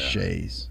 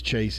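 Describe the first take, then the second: First: The word is pronounced the French way. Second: The word is pronounced the Texan way. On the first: "If you're French, yeah. It's chaise" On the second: "It's chaise if you're Texan"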